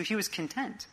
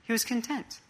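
First: "he" lifted, rest trailing off softly; quiet stress on "he" before "was content". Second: "was" pitched well up and stressed; "was" rising high, the rest softer. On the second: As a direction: land on "was" in "He was content". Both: Shown as a demonstration. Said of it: "the emphasis here".

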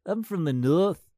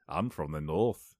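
First: Slow, high, loud "I'm from the North" with a rising end; northern English accent. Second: Slow, low "I'm from the North" with a rising end; northern English accent. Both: Retold or imitated. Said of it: "that's what they all sound like".

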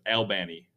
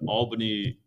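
First: Albany said "al-BANN-ee"; Georgia pronunciation. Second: Said in the usual way. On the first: Shown as a demonstration. Host insisting on the local name, Albany as "al-BANN-ee". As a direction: stress the middle of Albany, "al-BANN-ee". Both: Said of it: "that's how it's pronounced".

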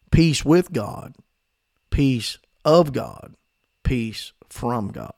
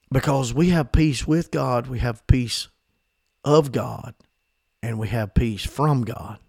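First: Peace with God, peace of God, peace from God, slow, each with stressed and falling; slow emphatic repeat. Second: Said in the usual way. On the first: Shown as a demonstration. Preacher drilling the three kinds of peace into the congregation, slow and stressed. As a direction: lean on each little word, slowly. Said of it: "repeated for emphasis". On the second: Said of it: "repeated slowly".

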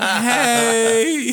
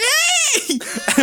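First: High, loud, caught-out hello; awkward greeting. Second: Imitating teacher's very high holler; high, drawn-out call from a passing car; yelled hello. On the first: Retold or imitated. Students caught lighting up greet teacher, awkward greeting. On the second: Teacher honking at students in park, yelled hello. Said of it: "Who's honking and yelling?".

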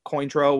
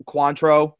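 First: Cointreau said as "KOYN-troh"; pronunciation variant. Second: Cointreau said as "KWAHN-troh"; mispronunciation. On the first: Bartender shows the other way to say the drink, pronunciation variant. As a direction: say Cointreau with "coin" as the first syllable. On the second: Bartender shows how one says the drink, pronunciation variant. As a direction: say Cointreau with an open "kwahn" first syllable. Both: Shown as a demonstration. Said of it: "I say stuff wrong all the time".

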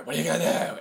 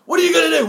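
First: Said in the usual way. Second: High, loud imitation of a ranting challenger; mock confrontational shout. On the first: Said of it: "He's like". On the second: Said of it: "But then he's like".

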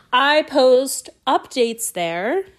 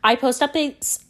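First: Slow, exaggerated word-by-word correction; slowed right down. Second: Said in the usual way. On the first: Real, not acted. Podcaster correcting a stumble to listeners, very slowly. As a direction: stretch each word out deliberately. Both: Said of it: "Let's slow it down".

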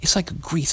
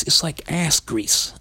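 First: Said in the usual way. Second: "ass" leaned on, whole line slowed right down; stress on ass. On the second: Shown as a demonstration. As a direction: drag out "It's like ass grease" hitting "ass".

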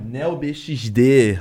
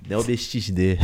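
First: Said in the usual way. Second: Light carioca accent; Rio accent. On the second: Shown as a demonstration. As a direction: say the name in a hint of Rio accent. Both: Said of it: "eu tô peguei com esse sotaque de carioca".

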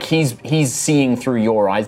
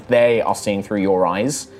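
First: Said in the usual way. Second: "They" set apart as a correction; slow down and stress "They". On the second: Real, not acted.

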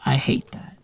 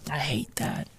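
First: Quiet. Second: Breathless whisper of disgust. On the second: Ranting vlogger whispers his disgust at the name. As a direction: hiss it under your breath. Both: Shown as a demonstration.

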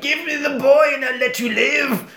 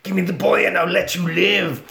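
First: High, strained killer-doll demand; menacing doll. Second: Lightly voiced killer-doll demand; milder doll threat. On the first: Acted. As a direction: threaten her in a high doll voice. Burnt doll threatens mum. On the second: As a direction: repeat the threat with less strain. Doll's threat repeated, milder.

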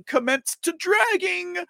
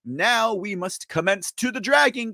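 First: Hyped-up call. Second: Said in the usual way. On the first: Acted. Rallying the audience to drag.

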